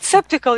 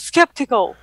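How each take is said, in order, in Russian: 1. Слово начинается на s, звука к нет. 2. Слово начинается на sk, звук к есть. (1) "ну так же Daniel произносит" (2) "Я говорю"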